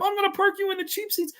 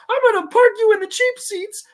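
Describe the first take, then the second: First: High froggy cartoon voice; Kermit-like try. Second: High, loud strangled yell; Bobcat impression. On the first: Second try at Bobcat's threat, sounding like Kermit. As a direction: squeak it like Kermit the Frog. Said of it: "That sounded like Kermit the Frog". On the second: Bobcat threatens the brother creature, high strangled yell. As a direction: yell it in a squeezed, cartoony high voice. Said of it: "I don't do a great Bobcat".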